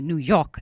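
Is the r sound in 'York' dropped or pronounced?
dropped. York rhymes with hawk, with no r. "I say New York, as in hawk, as in talk, as in chalk. I don't say O-R"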